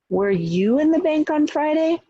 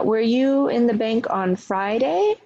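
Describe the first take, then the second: First: The stress falls on the word you. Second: The stress falls on the word Friday. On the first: The question is about the person. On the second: The question is about the day.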